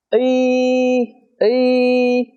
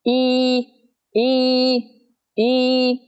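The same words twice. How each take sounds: First: Vietnamese "y", light and relaxed. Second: English "y", tense and heavier. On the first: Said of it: "chữ y ở trong tiếng Việt". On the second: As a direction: lips spread, tight ee. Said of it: "Còn chữ y trong tiếng Anh". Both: Shown as a demonstration.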